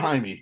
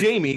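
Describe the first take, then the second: First: The name is said with a Spanish accent. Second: The name is said with an English accent. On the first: The speaker calls it right. "call him" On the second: The speaker calls it wrong. "Don't call him"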